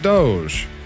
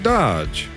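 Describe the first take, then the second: First: It is said with a long o, rhyming with 'vogue'. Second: It is said with a short o, like 'lodge'. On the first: Others say it this way. "I know they pronounce it Doge" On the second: The speaker's own chosen way. "I'm going to pronounce it Dodge"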